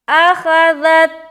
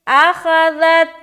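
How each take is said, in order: No difference in how they are said.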